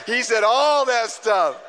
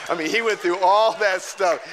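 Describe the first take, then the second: First: "all" drawn out, slow and loud, higher; stress on all. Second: Said in the usual way. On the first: Real, not acted. Telling the congregation how bad the email was, "all" stressed slow and loud. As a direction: lean hard on "all that stuff".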